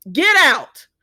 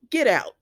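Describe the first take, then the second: First: Louder, higher mock order to leave; emphatic order. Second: Said in the usual way. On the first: Recapper telling Ridge to leave this woman's house, emphatic louder order. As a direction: throw him out with a forceful shout.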